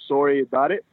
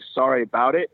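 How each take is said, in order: First: Sorry is said with a put-on Canadian accent. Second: Sorry is said with a plain American accent. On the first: The speaker calls it right. "that sounds as good a Canadian accent as I could possibly do" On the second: The speaker calls it wrong. "It's not really a sorry about it"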